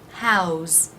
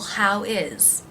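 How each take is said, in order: First: It is one syllable ending in a z sound. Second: It is said as two separate words.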